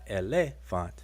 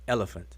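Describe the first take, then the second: First: The stress falls on a later syllable. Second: The stress is on the first syllable. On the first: The speaker calls it wrong. "Or not elephant" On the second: The speaker calls it right. "the stress is on the first syllable"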